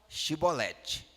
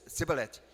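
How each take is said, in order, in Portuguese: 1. A palavra começa com um som de sh. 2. A palavra começa com um som de s. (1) "O nosso povo fala chibolete" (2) "Esse não é dos nossos"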